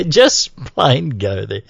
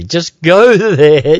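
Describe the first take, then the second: First: Said in the usual way. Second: Laughing. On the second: Real, not acted. Repeating the website plug.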